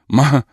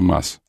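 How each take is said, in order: First: The final s becomes a breathy h sound. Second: The word ends with a clear s sound. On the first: "Вместо «с» они произносят вот это" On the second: "вместо «мас»"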